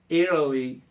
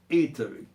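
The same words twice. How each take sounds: First: The T is a quick flap, between r and d. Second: The T is said as a clear t. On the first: "os americanos acabam mudando esse T do Italy para um troço meio R, meio D" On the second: "A pronúncia brasileira eu preferia Italy"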